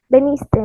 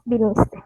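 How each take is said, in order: First: The first vowel sounds like e. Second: The first vowel sounds like i. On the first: The speaker calls it wrong. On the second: The speaker calls it right.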